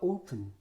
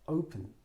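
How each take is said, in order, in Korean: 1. 첫 모음은 짧고 평범한 o예요. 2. 첫 모음은 길게 ou로 미끄러지는 소리예요. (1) "open이라고 읽지 않도록 조심하셔야 됩니다" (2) "우를 꼭 넣어주셔야 돼요. 영어는 모음을 강하게 읽고 길게 읽고"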